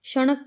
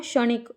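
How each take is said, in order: First: "क्षणिक" said as "sha-nak"; wrong pronunciation. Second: "क्षणिक" said as "sha-nik"; correct pronunciation. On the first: Teacher quizzing students on the mistake, "क्षणिक" as "sha-nak". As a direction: put uh in place of i in "क्षणिक". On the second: Teacher answering the quiz, "क्षणिक" as "sha-nik". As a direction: give "क्षणिक" its i in the last syllable. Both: Shown as a demonstration. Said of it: "की जगह क्या होगा".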